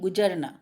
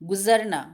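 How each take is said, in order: First: The middle consonant is a 'j' sound. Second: The middle consonant is a 'z' sound.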